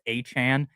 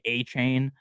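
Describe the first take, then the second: First: The last syllable sounds like 'chan'. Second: The last syllable sounds like 'chain'. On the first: The speaker calls it right. "I know it's A-Chan" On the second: The speaker calls it wrong. "Sometimes I say A-Chain"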